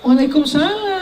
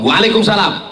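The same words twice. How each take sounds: First: It is said in a soft, sweet voice. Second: It is said in a plain, firm voice.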